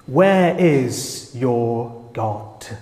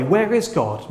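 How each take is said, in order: First: Drawn-out, slow mocking question; mocking taunt. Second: Genuine, softer honest question; sincere question. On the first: Nations mocking Israel, a slow scornful taunt. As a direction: taunt the believers, dragging every word. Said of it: "they mock and say". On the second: Retold or imitated. A seeker asking honestly, a sincere gentle question. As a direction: ask it because you truly want to know. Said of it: "asking in a more sincere way".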